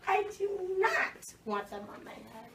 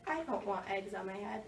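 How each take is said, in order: First: "not" pulled out high and long in "I do not want them on my head"; slow down and lean hard on not; stress on NOT. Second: Said in the usual way. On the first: Shown as a demonstration. Teacher modeling the character's firm refusal. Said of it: "making sure that the reader knows". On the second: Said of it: "It's not".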